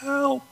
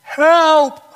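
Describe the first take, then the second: First: High but much softer, worn-out call; a failing voice with no strength left; weak raspy cry. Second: Loud, high cry for help from a pit. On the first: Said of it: "in a low and raspy voice". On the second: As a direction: shout up from the bottom of the well. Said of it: "He cried out". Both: Acted.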